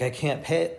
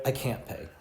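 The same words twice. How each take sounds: First: A touch of exasperated exclaiming; exclaimed. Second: Said in the usual way. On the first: Shown as a demonstration. Teacher exclaiming over an electricity bill he can't pay. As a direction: blurt it out, fed up with the bill. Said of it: "So you're gonna exclaim it". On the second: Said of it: "maybe something that you're exasperated with".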